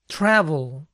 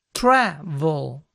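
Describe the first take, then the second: First: Said in the usual way. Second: "Travel" split slowly, TRA held long before vel; stress on first syllable. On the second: Shown as a demonstration. Teacher showing the accent is not final, first-syllable stress on "Travel". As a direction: lean hard on TRA in "Travel". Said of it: "sino en la primera".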